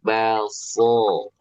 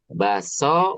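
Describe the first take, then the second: First: The S sound is thick and heavy. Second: The S sound is thin and light. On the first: The speaker calls it right. "belakang lidah diangkat sehingga tebal" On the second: The speaker calls it wrong. "so-nya belum sempurna"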